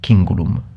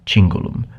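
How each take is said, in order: First: The word uses a classical Latin pronunciation. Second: The word uses an ecclesiastical Latin pronunciation.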